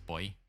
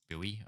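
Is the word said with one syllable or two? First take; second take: one; two. First: The word is said with one syllable. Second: The word is said with two syllables. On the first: This is the Australian pronunciation. "in Australia it's boy" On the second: This is the American pronunciation. "it's Bowie over there"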